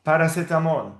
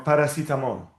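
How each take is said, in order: First: Paracetamol with "seh" in the middle; E read as A. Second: Paracetamol with "see" in the middle; alternative I vowel. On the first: Teacher explaining E to student, Paracetamol with "seh". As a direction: say the third syllable of Paracetamol as "seh". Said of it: "the E equals A". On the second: Teacher offering student the other reading, paracetamol with "see". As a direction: say the third syllable of paracetamol as "see". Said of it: "or paracetamol". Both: Shown as a demonstration.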